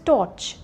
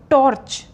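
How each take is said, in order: First: The R before the consonant is silent. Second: The R before the consonant is pronounced. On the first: The speaker calls it right. "Because R is followed by C" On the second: The speaker calls it wrong. "No"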